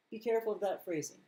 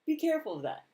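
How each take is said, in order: First: Said in the usual way. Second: "Be" punched much higher and louder, falling off; urgent warning. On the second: Shown as a demonstration. Warning viewers about a phrase, stressing "Be". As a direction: hit "Be" hard as an alarm.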